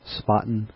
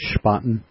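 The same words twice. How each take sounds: First: The name begins with a plain s sound. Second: The name begins with an sh sound. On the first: The speaker calls it wrong. "not Spaten" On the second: The speaker calls it right. "The Germans pronounce it with a sh, so it's Spaten"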